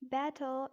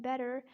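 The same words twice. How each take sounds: First: British "Better" with a crisp T and no R; British-accent demo of Better. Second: American "better" with flapped T and sounded R; American-accent demo of better. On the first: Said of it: "in British accent". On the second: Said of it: "in American accent". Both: Shown as a demonstration.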